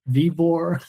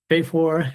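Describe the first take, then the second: First: The name is said in a plain English style. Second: The name is said in a German-style pronunciation.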